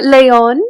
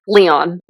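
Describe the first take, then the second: First: Leon as "leh-OHN", high and loud; Spanish pronunciation. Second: Said in the usual way. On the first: Shown as a demonstration. Host showing off the accented name, Spanish pronunciation of Leon. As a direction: punch Leon high with a Spanish "lay-on" sound. Contrasts two ways of saying Leon.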